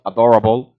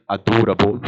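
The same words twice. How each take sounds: First: "adorable" the American way; American pronunciation. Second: "adorable" with a long Scottish vowel and tapped r; Scottish pronunciation. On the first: Shown as a demonstration. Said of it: "Instead of adorable". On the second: Retold or imitated. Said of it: "he said adorable".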